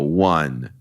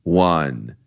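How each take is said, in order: Both takes have the same delivery.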